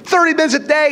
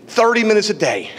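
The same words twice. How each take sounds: First: Preacher's raised insistence; emphatic repeat. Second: Said in the usual way. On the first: Shown as a demonstration. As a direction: hammer the point home on the repeat.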